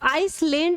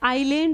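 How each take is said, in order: First: An s sound is heard after the first vowel. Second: No s sound is heard after the first vowel. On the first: The speaker calls it wrong. "आई आई आइस नहीं बोलोगे, आई आइसलैंड नहीं होता है" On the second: The speaker calls it right. "आइलैंड होता है ना"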